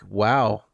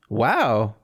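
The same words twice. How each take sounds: First: The word sounds delighted and pleased. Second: The word sounds flat and disappointed. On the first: The time spent was enjoyable. "if I had spent time playing a game that I like" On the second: The time spent felt wasted. "I don't know if you can hear the difference in my voice"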